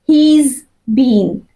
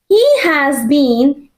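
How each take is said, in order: First: The word 'has' is shortened onto 'he'. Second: The word 'has' is said in full.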